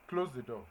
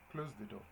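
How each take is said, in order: First: Crisp order, a bit louder; firm classroom command. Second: Said in the usual way. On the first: Shown as a demonstration. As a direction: tell them to shut the door. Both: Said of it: "example of a command".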